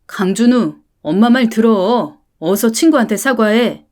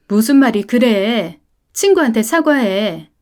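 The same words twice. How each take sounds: First: Louder, firmer repeated order; stern full-name scolding. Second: Firm scolding command; stern mother. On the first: Mother using his full name, ordering the apology louder. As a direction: hit the full name and demand it. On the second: Mother ordering her son to apologise, firm and stern. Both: Acted.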